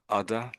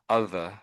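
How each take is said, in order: First: The middle consonant is a hard 'd' sound. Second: The middle consonant is a soft 'th' sound. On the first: "you sort basically pronounce it as a D" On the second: "So I say both of these for you"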